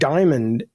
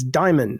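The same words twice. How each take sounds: First: The final D sound is clearly heard. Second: The final D sound is dropped. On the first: This is how some other people say it. "you hear the D at the end" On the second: This is how the speaker says it. "To me, it's diamond"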